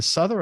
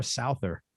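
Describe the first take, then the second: First: Souther with a short "uh" vowel, like "SUTH-er"; first pronunciation guess. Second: Souther with an "ow" vowel, like "SOW-ther"; alternative pronunciation. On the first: Host unsure of guest list name, Souther said as "SUTH-er". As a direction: say Souther to rhyme with "mother". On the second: Host checking with guest, Souther said as "SOW-ther". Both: Shown as a demonstration. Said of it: "I never knew how to pronounce it".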